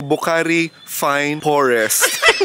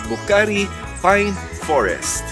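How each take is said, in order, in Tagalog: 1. Nagsisimula sa tunog na F ang 'Pine'. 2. Nagsisimula sa tunog na P ang 'Pine'.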